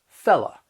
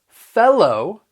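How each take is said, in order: First: The word ends with an 'uh' sound. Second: The word ends with an 'oh' sound. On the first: "you're going to hear people say la" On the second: "instead of pronouncing it low"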